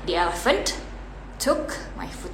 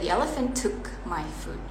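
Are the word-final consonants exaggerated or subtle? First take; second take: exaggerated; subtle. First: Every final consonant is pronounced very strongly. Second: Only some final consonants are clearly pronounced. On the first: The speaker calls it wrong. "Nah itu yang terlalu berlebihan, so it's wrong" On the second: The speaker calls it right. "Kita sound yang keduanya aja"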